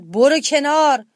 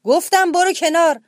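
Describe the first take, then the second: First: Slow, loud roaring command; lion roaring. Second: Higher, louder repeated roar; lion roaring louder. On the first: Lion ordering the hero aside, roaring. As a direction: roar it out as an order. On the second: Lion repeating the order, roaring harder. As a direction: bellow the repeat, losing patience. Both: A narrator's reading. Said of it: "شیر نعره زد".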